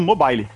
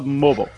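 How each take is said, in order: First: It is said with a Brazilian accent. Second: It is said with an American accent.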